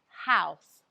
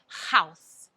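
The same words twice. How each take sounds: First: The H is soft and airy. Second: The H is harsh, Russian-accented.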